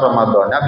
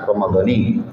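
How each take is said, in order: First: The word ends with an 'a' vowel. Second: The word ends with an 'i' vowel. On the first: "ada yang dona" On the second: "ada yang doni"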